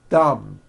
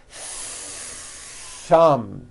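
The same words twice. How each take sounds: First: The TH is cut short with no friction. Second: The TH is held long with audible friction. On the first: The speaker calls it wrong. "there was never any air friction" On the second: The speaker calls it right. "Notice how long I'm holding the T H sound"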